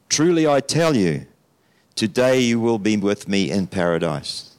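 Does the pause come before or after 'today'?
before. The pause comes before the word today.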